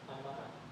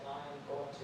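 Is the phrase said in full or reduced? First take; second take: reduced; full. First: The words are contracted and run together. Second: Every word is said in full. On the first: "he says, I'm gonna" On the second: "instead of saying I am going to"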